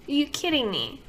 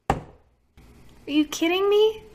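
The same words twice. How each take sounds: First: Said in the usual way. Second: High, slow, drawn-out disbelief; slow, high, stunned "me"; incredulous. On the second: Real, not acted. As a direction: stretch out "Are you kidding me?" high and slow in real shock. Disbelief at mineral oil.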